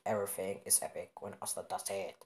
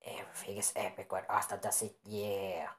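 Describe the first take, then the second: First: Slightly lowered put-on voice; lightly altered storyteller voice. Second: Whispery put-on voice; hushed character voice without full tone; different put-on voice. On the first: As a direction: put on an odd voice, a touch low. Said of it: "I don't know why he made this voice". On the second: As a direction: say it in an odd, whispered voice. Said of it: "Now it's a different voice than I did before".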